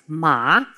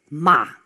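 First: The pitch rises slightly, like a question. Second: The pitch drops steeply, like an angry word. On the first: It means hemp. "Die gaat licht naar boven" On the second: It means to curse. "wat wij doen als we boos zijn. Dus die gaat heel steil naar beneden"

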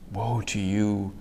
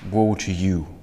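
First: It is said in a sad, sorrowful tone. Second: It is said in a stern, condemning tone. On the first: The speaker grieves over the listeners' state. "not just angry condemnation, but deep sorrow" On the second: The speaker is condemning the listeners. "some of the sternest words of condemnation"

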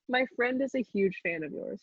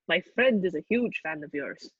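First: It is said in the speaker's plain accent. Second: It is said in an Irish accent.

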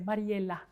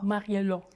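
First: The final vowel is said with an open mouth. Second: The final vowel is said with a closed mouth. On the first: This is the name's proper form. "on ouvre la bouche oui. à la fin" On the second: This is how locals said the name. "les mots m'appelaient Mariello"

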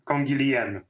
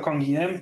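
First: The name is said with an L sound. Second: The name is said without an L sound. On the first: The speaker calls it wrong. "To nie, Kongiliem nie" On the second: The speaker calls it right. "Jest to Kongiem"

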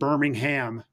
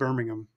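First: The final syllable is a full, clear 'ham'. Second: The final syllable is weak and reduced. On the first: This is how the city name is said in Alabama. "I was saying Birmingham" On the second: This is how the city name is said in Britain. "instead of Birmingham"

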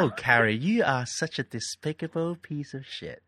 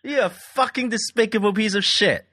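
First: It is said in a soft, gentle tone. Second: It is said in a heated, agitated tone.

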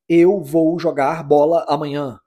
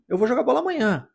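First: It is said slowly, word by word. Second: It is said fast, words run together.

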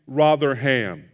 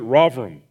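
First: Every syllable of the name is sounded out fully. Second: The name is said in a shortened, reduced way. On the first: "That's how it's spelled" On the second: "You pronounce it Rotherham"

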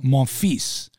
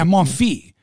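First: The name ends with an audible s sound. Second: The name ends without any s sound. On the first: The speaker calls it right. "If you don't know how to pronounce Gaël Monfils" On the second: The speaker calls it wrong. "Without the S"

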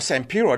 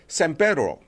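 First: It is said with an English pronunciation. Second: It is said with a Spanish pronunciation. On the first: The speaker calls it wrong. "人家说这哪叫San Pedro" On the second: The speaker calls it right. "这是西班牙发音"

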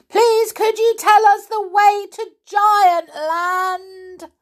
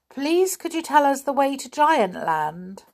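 First: It is said in a very loud voice. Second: It is said at a normal, polite volume.

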